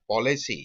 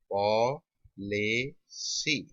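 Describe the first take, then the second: First: Said in the usual way. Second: "policy" very slow, three separate syllables; slow sounding-out. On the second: Shown as a demonstration. Teacher writing the example for students, slow sounding-out.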